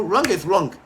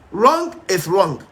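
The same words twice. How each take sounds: First: Said in the usual way. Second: Wrong is wrong, slow, each word weighed and stressed; slow emphatic repeat. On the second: Real, not acted. Preacher hammers the verdict home to debaters, slow and stressed. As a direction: drag out "Wrong is wrong" like a final verdict.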